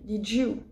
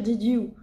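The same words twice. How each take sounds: First: The d and y merge into a 'j' sound. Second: The d and y are said as separate sounds. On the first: The speaker calls it right. "on va dire did you" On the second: The speaker calls it wrong. "on va pas dire did you"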